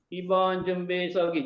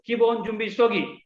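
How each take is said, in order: First: It is said flatly, without spirit. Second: It is said energetically, with spirit.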